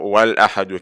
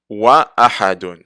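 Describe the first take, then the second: First: The words run together without a glottal stop. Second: A glottal stop is heard before ahadun. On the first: The speaker calls it wrong. "On va pas dire" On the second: The speaker calls it right. "le Hamd al-Qata' est toujours prononcé"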